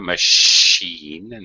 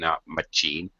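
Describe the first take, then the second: First: The middle consonant is a soft sh sound. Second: The middle consonant is a hard ch sound. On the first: The speaker calls it right. "That's an C H with the S H sound there" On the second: The speaker calls it wrong.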